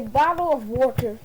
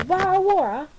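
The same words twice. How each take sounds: First: Said in the usual way. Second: Mock British accent, higher and swallowed. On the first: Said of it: "let me say bottle of water". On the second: Shown as a demonstration. Speaker shows off a practised British accent to royal guests, mock British. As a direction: put on a British accent with dropped consonants in "Bottle of water". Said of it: "in my British accent".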